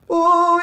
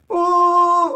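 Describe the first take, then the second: First: The sound is held back and restrained. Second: The sound is open and wailing. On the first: The speaker calls it wrong. "it's not quite this" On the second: The speaker calls it right. "it's more like this, like a wailing sound"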